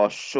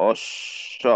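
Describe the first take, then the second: First: অশ্ব joined up as "osh-sho"; corrected pronunciation. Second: অশ্ব very slowly, "osh ... sho"; drawn-out example. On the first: Teacher showing learners how অশ্ব is said, corrected pronunciation. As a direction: say অশ্ব with doubled sh, closing on "o". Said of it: "এটা উচ্চারণ হবে". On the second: Teacher introducing অশ্ব as an example, drawn-out reading. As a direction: split অশ্ব into two stretched syllables. Written form, drawn out before demo. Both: Shown as a demonstration.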